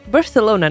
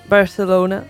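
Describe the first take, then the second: First: It is said with a non-Spanish accent. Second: The same.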